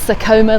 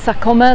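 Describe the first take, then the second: First: The name is said with a British pronunciation. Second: The name is said with a Spanish pronunciation. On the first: "like the British should probably say" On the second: "like you'd probably say in Spanish"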